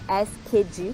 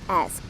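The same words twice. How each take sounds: First: The ending is pronounced as an extra 'ed' syllable. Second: The ending is pronounced as a short 't' sound. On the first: The speaker calls it wrong. "não tem esse som de E D, não, de asked" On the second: The speaker calls it right. "som de T no final"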